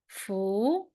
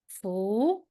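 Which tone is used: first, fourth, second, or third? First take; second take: second; second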